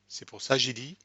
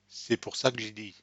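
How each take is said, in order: First: No 'que' sound comes before 'j'ai dit'. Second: A faint 'que' sound comes before 'j'ai dit'. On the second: "with the que"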